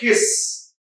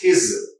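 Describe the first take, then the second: First: The word ends with a hissing s sound. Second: The word ends with a buzzing z sound. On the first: The speaker calls it wrong. "It's not his" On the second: The speaker calls it right. "it's his. Za, z, his"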